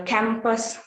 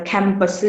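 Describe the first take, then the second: First: Said in the usual way. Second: "campus" with a short vowel after the s; added final vowel. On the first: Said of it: "usually after a final consonant". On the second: Shown as a demonstration. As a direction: let "campus" end on a small extra vowel. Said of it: "here is the vowel sound".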